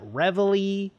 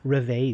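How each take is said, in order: First: The word has an English army-style pronunciation. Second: The word has a French-style pronunciation. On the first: "I think they call it Reveille" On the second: "my French education makes me want to say Reveille Squad"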